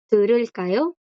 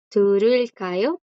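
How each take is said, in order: First: Said in the usual way. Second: "Turulkayo" slowed right down, rising at the end; teacher slows "Turulkayo" down for the class; slow Korean demo. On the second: Shown as a demonstration. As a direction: take "Turulkayo" apart slowly for learners. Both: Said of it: "Yo puedo usar la palabra canción".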